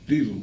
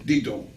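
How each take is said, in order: First: The second syllable is ghosted and very light. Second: The second syllable is stressed and clearly sounded. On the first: The speaker calls it right. "had to be ghosted" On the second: The speaker calls it wrong. "They always want to reiterate the second syllable"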